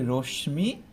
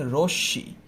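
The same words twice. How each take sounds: First: রশ্মি said "roshmi", m sounded; mispronounced with m. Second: রশ্মি said "roshshi", no m; doubled sh. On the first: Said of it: "অনেকেই ভুল উচ্চারণ করি". (রশ্মি-র ম উচ্চারণ করে "রোশমি") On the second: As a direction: double the sh in রশ্মি: "rosh-shi". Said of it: "সেই বর্ণের দিতে হবে।". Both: Shown as a demonstration.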